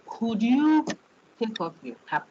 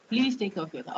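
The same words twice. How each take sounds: First: Polite request. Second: Said in the usual way. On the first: Shown as a demonstration. Lecturer showing a polite request to a student. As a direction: ask it as a courteous favour. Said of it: "It's as if I'm asking you". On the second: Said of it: "It is not being asked politely".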